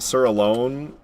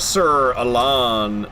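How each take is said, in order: First: The name's last part sounds like 'alone'. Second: The name's last part does not sound like 'alone'.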